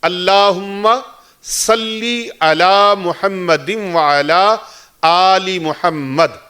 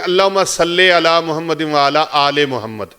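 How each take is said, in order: First: Salli and aali end in an 'ee' vowel. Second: Salli and aali end in an 'eh' vowel. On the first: The speaker calls it right. "ना सल्ले है और ना ही आले है" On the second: The speaker calls it wrong. "यहां दरूद पाक में एक संगीन गलती करते हैं लोग"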